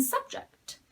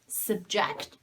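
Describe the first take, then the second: First: SUB-ject, full first vowel and higher pitch; first-syllable stress. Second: Sub-JECT, schwa in the first syllable; second-syllable stress. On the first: Teacher contrasting noun with verb, first-syllable stress. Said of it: "If the stress is on the first syllable". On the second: Teacher contrasting verb with noun, second-syllable stress. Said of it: "if the stress falls on the second syllable". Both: Shown as a demonstration.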